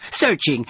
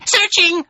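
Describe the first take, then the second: First: Single creature voice, somewhat higher; crawler's lead call. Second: Very high, loud answering call; echoing chorus cry. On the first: Acted. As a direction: intone the word for others to echo. Crawler's word before chorus echo. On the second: A narrator's reading. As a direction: echo it shrilly as a crowd. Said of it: "voices echoed".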